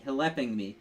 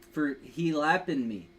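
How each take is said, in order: First: "helping" as one word, help-ing; "helping" read right at last; corrected reading. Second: "he lapping" read as two words, he then lapping; "he lapping" split in two, not helping; misread word. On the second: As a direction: stumble over "he lapping" as if it were he lapping. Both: Real, not acted. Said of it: "H L, H L E P I N G".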